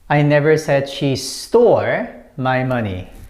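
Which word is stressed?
stole. The word stole carries the main stress. She has the money but did not steal it. "When you put emphasis on this one"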